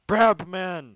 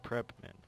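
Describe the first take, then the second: First: "Brabmen" belted high, loud and drawn out; loud, slow, high-pitched "Brabmen"; emphatic correction. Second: Said in the usual way. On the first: Shown as a demonstration. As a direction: stretch and shout "Brabmen" as the proper name.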